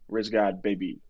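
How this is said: It is said flatly, like a bored clerk.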